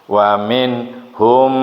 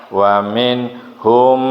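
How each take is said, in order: Both takes have the same delivery.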